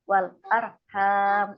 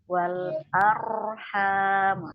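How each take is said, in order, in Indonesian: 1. Bunyi r tertahan dan terputus pendek. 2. Bunyi r mengalir terus dengan bebas dan panjang. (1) "Kalau tertahan kan seperti wal arham itu tertahan syiddah" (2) "arqwa dialirkan wal arham sampai"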